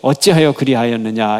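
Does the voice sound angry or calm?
calm. It is read in a calm, even voice. It is just read from the page. "우리가 읽을 때 ... 이렇게 읽지만"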